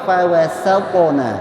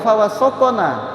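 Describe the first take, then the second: First: The s sound is light and plain. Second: The s sound is heavy and emphatic. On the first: The speaker calls it right. "tapi fawasotona, sin bukan sod" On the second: The speaker calls it wrong. "bukan fawasotona"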